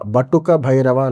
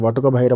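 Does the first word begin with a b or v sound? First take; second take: b; v. First: The first word begins with a b sound. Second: The first word begins with a v sound. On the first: This is the northern way of saying it. "ఉత్తర భారతదేశంలో ఉన్న ఆచారం అంటే కొన్ని పదాలు ఉచ్చరిస్తున్నప్పుడు ఈ బా" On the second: This is how people here read it. "అని మనం చదువుతూ ఉంటాం"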